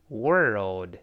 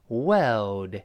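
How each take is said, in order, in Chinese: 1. 元音是卷舌的，舌头向上卷。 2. 元音没有卷舌，舌头也不卷。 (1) "美式发音中不好读 ... 后面那个or 发er" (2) "英式发音就好读一些，它中间少了一个卷舌"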